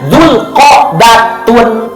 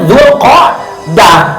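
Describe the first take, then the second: First: The word ends with a full -tun ending. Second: The word ends with a soft h sound. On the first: "dibaca aslinya Dzulqa'datun, berarti tak" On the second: "kalau dimatikan jadi Dzulqa'dah"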